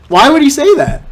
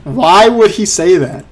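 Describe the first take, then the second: First: Higher, louder disbelieving repeat; incredulous. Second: Said in the usual way. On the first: Real, not acted. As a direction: say it again, now baffled and loud. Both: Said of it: "repeated disbelief".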